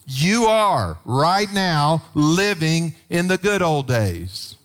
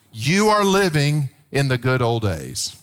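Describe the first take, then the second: First: Drawn-out, emphatic restatement; slow, pressing "right now"; slow emphatic repeat. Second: Said in the usual way. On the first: Real, not acted. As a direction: lean into every word.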